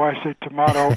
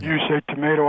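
First: "tomato" with a broad ah, tuh-MAH-toe. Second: "tomato" with a long ay, tuh-MAY-toe. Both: Shown as a demonstration.

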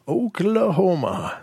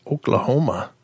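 First: Oklahoma stretched slowly, higher, falling at the end; drawn-out repeat. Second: Said in the usual way. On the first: Pretend. Host announcing the next story's state, Oklahoma drawn out. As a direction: draw out each vowel of Oklahoma.

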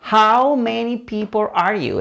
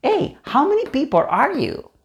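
First: "How many people are you" slowly, each word apart; slow, careful question for learners; slow model. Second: "how many people are you" run together quickly, higher pitched; quick, lively waiter's question. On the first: Slow model before the quick take. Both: Shown as a demonstration.

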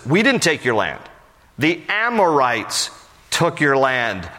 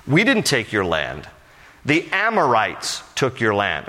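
First: "Amorites" drawn out slowly, then "took your land" slow and pointed; slow down and lean hard on "Amorites"; stress on Amorites. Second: Said in the usual way. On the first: Retold or imitated. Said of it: "Jephthah is saying". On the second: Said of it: "let me explain what he's saying".

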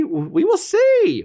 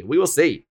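First: High and slow, teasing we will see; drawn-out high. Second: Said in the usual way. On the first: Shown as a demonstration. Teasing viewers with a high, slow we will see.

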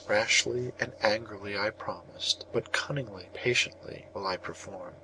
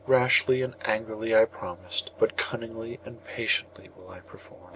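First: Said in the usual way. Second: Weeping call. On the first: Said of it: "prayed in the bitterness of his soul". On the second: A narrator's reading. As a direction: call to the sky through tears. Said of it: "three times Perseus called, weeping".

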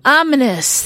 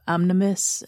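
First: "Ominous" said clearly and loudly; corrected pronunciation. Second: "omnimus" with an extra m, fumbled; mispronounced. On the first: Shown as a demonstration. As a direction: land "Ominous" with relief. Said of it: "Thank you". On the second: Real, not acted. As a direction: garble "omnimus" out. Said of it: "I can't even say".

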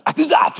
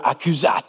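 First: High, mock-German ACCUSAT; German accent. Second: Said in the usual way. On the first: Shown as a demonstration. Preacher jokes about how the Latin sounds, mock German accent. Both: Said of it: "It sounds German".

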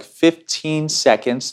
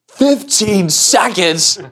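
First: Said in the usual way. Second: High, very slow incredulous echo; appalled little kid. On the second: Retold or imitated. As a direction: drag it out like a kid facing the impossible. Littlest kid appalled at fifteen seconds.

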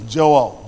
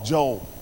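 First: Joel in two syllables, "JO-el"; careful two-syllable pronunciation. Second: Joel squeezed into one syllable, "Jole"; South Philly pronunciation. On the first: Preacher correcting the prophet's name, Joel carefully in two syllables. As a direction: sound out both vowels in Joel, "Jo-EL". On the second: Preacher owning a South Philly accent, Joel as one-syllable "Jole". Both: Shown as a demonstration. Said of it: "that's my South Philly accent".

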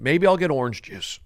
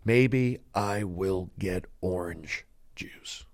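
First: Said in the usual way. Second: Slow, lower, breath-only whisper; hammed-up hushed soliloquy; dramatic whisper. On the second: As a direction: whisper it slowly, word by word. Repeats line as hushed drama.

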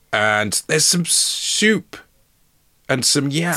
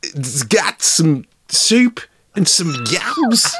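First: High, slow, slightly Scouse delivery; odd put-on Scouse lilt; Scouse-sounding. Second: Hammed-up Scouse impression, high and slow; drawn-out, high-pitched comic Scouse; Scouse Christopher Walken. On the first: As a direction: stretch it out with a hint of Scouse. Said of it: "Is he Scouse?". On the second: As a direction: lean hard into a silly Scouse accent. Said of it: "Is he Scouse Christopher Walken here?".

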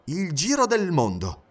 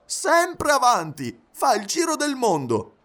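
First: Slow, astonished echo; drawn-out incredulous question; surprised exclamation. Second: High, drawn-out enthusiastic exclamation; animated high-pitched valet; excited announcement. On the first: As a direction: repeat it in measured disbelief. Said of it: "esclamò Fix". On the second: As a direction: reveal it eagerly, pitch right up. Valet excitedly reveals master's journey. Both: A narrator's reading.

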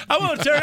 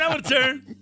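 First: Put-on high, loud, kid-like eager plea; eager begging. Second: High, eager repeated plea; eager begging. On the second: Retold or imitated. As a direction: keep begging for your turn, childlike. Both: Passengers eager to sit on the man.

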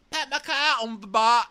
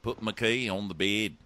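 First: High, loud squawked attempt at Kiwi; hammed-up, very high bad accent; botched New Zealand accent. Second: Mock New Zealand accent coaching; steady put-on New Zealand vowels. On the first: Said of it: "like a drunk Mary Poppins". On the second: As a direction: say it as a Kiwi demonstrating his accent. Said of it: "Let's work on that".

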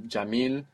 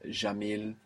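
First: Jamil with a hard English-like J; standard Arabic J. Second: Jamil with a soft zh sound; Levantine J. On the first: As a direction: jamil opening on a dzh sound. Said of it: "In standard Arabic you will hear". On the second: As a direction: jamil said zha-MEEL. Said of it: "Around the Levant you will hear". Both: Shown as a demonstration.

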